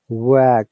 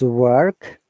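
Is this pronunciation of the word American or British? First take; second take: British; American. First: The R sound is silent after the vowel. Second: The R sound is pronounced after the vowel. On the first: "But in British English it is work. We don't pronounce R" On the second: "in American English it is work. R sound is there"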